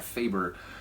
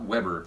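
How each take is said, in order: First: The name begins with a v-like sound. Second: The name begins with an English w sound. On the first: The speaker calls it right. "you say that Faber" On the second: The speaker calls it wrong. "not Weber"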